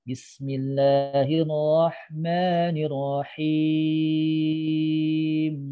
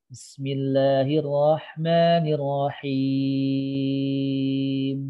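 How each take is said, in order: The two takes are said the same way.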